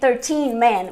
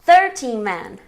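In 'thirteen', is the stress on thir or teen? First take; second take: teen; thir. First: Thirteen is stressed on its last syllable. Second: Thirteen is stressed on its first syllable. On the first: The speaker calls it wrong. "we don't say thirteen men" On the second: The speaker calls it right. "we say thirteen men ... it goes to third"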